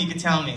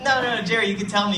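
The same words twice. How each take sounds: First: Said in the usual way. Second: Higher, gentle coaxing. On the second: Retold or imitated. Storyteller coaxing the shy boy, pitched up and encouraging. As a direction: coax a shy child to speak.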